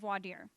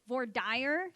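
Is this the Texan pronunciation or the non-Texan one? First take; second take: non-Texan; Texan. First: It uses a pronunciation not said in Texas. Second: It uses the pronunciation said locally in Texas. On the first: People in Texas will make fun of this. The speaker calls it wrong. "You do not pronounce it voir dire" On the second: This is how lawyers in Texas say it. The speaker calls it right. "You pronounce it voir dire"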